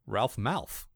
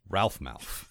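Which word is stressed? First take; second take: malf; ralph. First: The stress falls on the word Malf. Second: The stress falls on the word Ralph. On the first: The speaker calls it right. "It's his last name" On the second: The speaker calls it wrong. "I like that you put the emphasis in a different"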